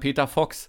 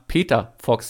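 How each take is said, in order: First: The stress falls on the word Fox. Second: The stress falls on the word Peter. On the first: This is how everyone else says it. "Ich und alle anderen sagen Peter Fox" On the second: This is how the other person says it. "Dass du immer [name] sagst. Also irgendwie so die Betonung. / Auf den [name]"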